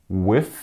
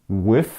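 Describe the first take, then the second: Both takes have the same delivery.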